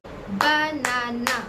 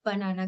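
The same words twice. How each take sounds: First: "बनाना" very slowly as ब, ना, ना; three drawn-out, separate syllables in banana. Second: Said in the usual way. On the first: Shown as a demonstration. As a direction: break banana into three clapped beats. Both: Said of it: "तो उसमें मैं भी clap करूंगी".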